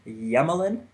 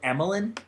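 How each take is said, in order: First: The name begins with a 'y' sound. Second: The name begins with a plain vowel sound. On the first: This is how the broadcast and Russian say it. "the broadcast last night was calling him Yemelin" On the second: This is the speaker's usual way of saying it. "I always go with Emelin"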